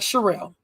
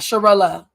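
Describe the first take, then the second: First: The name ends without an extra vowel sound. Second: The name ends with an extra 'uh' vowel. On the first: The speaker calls it right. "I like Sherelle" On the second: The speaker calls it wrong. "not Sharella"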